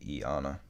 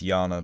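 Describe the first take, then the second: First: The name begins with an 'eye' vowel sound. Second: The name begins with a 'y' glide sound. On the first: This is a personal reading based on the spelling. "That's how I pronounce it" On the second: This is the accepted pronunciation of the name. "I know it's Yana"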